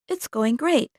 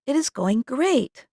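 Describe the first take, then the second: First: It is said fast with words run together. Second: Each word is said fully and carefully.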